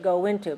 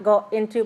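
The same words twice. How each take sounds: First: A w glide joins the two words smoothly. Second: The words are said separately, without a w glide. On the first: The speaker calls it right. "but go into because the wo" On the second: The speaker calls it wrong. "not go into"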